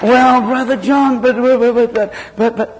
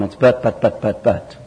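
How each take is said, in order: First: Much higher, slow whiny churchgoer; mock a believer stalling with excuses. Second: Said in the usual way. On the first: Preacher mimics a churchgoer whining excuses at Brother John. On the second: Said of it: "that's our problem".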